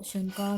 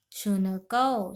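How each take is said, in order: First: Said in the usual way. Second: शुनकौ drawn out syllable by syllable, slowly; very slow dictation. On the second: Shown as a demonstration. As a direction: spell out शुनकौ very slowly for students. (शुनकौ को बहुत धीरे-धीरे बोलें) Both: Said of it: "शुनकौ मतलब".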